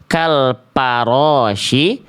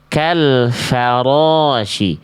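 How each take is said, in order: First: The consonant after kal is a closed p sound. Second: The consonant after kal is a breathy f sound. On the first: The speaker calls it wrong. "jangan sampai dibaca" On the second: The speaker calls it right. "tapi kita baca"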